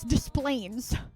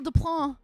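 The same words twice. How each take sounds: First: The name is pronounced the English way. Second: The name is pronounced the French way. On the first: This is how locals say the place name. The speaker calls it right. "you have to mispronounce the name to say it right" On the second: Locals would not recognize the place name. The speaker calls it wrong. "people wouldn't know what the fuck you were talking about"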